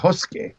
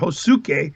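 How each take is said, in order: First: The u vowel after the s is dropped. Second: The u vowel after the s is pronounced. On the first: The speaker calls it right. "in Japanese you drop the U" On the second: The speaker calls it wrong. "we would say we said Hosuke"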